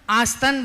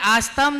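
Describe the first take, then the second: First: The word ends with an n sound. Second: The word ends with an m sound. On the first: The speaker calls it right. "आस्तन बोलना चाहिए" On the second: The speaker calls it wrong. "आस्तम नहीं"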